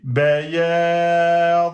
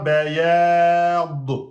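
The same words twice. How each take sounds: First: The final consonant is held closed without release. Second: The final consonant is released with a small bounce. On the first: The speaker calls it right. "on bloque et on reste bloqué" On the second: The speaker calls it wrong. "on ne fait pas qalqala, on ne dit pas bayad"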